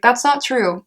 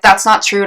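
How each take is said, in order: First: It is said in a mild, light tone. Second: It is said in a sharp, accusing tone. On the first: The speaker doubts the claim but means well. The speaker calls it right. "in a way that you mean well, but you're just calling them out" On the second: The speaker is accusing and rejecting the person. The speaker calls it wrong. "but not like"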